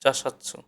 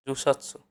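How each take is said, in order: First: জাসাতসু said with an open ja, a quick slip; teacher trips on জাসাতসু before correcting to জু; slip on jusatsu. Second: জুসাতসু said carefully with a clear rounded ju; teacher fixes the word to জুসাতসু; corrected jusatsu. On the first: Counting books to ten, the first take comes out জাসাতসু. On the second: Correcting the slip for students, clearly saying জুসাতসু. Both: Shown as a demonstration. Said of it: "দশটা বই হলে".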